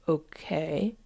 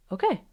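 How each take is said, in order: First: Drawn-out, tentative rising okay; voice of the emotion. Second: Short, light okay; calm acceptance acted out. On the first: Acted. Emotion starting to accept, tentative question. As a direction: test the word slowly, unsure. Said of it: "And then the emotion says". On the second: You reassuring the emotion, light acceptance. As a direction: give a quick, easy okay. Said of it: "And you just say".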